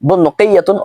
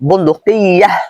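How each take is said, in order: First: The word ends with a full 'atun' ending. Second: The word ends with a short 'ah' sound. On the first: The speaker calls it right. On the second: The speaker calls it wrong.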